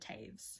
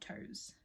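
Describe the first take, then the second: First: The name rhymes with 'waves'. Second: The name rhymes with 'toes'. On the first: "he pronounces it Taves" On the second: "and not Toes"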